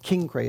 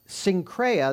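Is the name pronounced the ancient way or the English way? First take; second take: ancient; English. First: The name has an ancient Greek pronunciation. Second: The name has an English pronunciation. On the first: This is how people said it in ancient times. "is actually the way they would say it in those days" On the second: This is the modern English form of the name. "that's how you say it in English"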